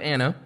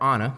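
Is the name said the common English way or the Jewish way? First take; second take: common English; Jewish. First: The name is said the common English way. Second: The name is said the Jewish way. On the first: The speaker calls it wrong. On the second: The speaker calls it right.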